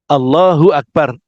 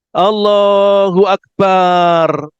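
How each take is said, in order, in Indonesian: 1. Tidak ada vokal yang dibaca lebih panjang dari biasa. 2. Vokal dalam ba dibaca panjang. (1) "hati-hati ketika mengucapkan Allahu Akbar" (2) "Banyak panjang"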